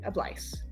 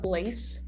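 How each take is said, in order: First: The word ends with an "ice" sound. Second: The word ends with an "ace" sound. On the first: The speaker calls it right. "like you're saying ice at the end" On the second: The speaker calls it wrong. "If you didn't have the accent, it would be like a, a, blaze, which that doesn't sound very good"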